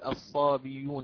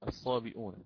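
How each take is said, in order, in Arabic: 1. تأتي الياء المنزلقة قبل الحركة الأخيرة. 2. تأتي الهمزة قبل الحركة الأخيرة. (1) "لا أستطيع أن أقول الصابيون هكذا" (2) "عندما حذفنا الهمزة فيها في كلمة الصابئون"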